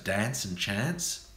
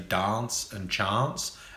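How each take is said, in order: First: The vowels sound like standard Australian pronunciation. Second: The vowels sound more like English pronunciation. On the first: This is how most others say it. "as opposed to" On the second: This is how one regional group says it. "more English pronunciations"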